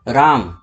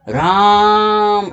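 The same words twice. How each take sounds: First: The word is said at normal length. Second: The first vowel is drawn out, like calling someone.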